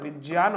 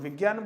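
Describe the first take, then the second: First: The middle cluster is a half j joined to y. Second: The middle cluster is not j joined to y. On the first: The speaker calls it right. "इसका शुद्ध उच्चारण विज्ञान होना चाहिए" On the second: The speaker calls it wrong. "लेकिन हम विज्ञान बोलते हैं"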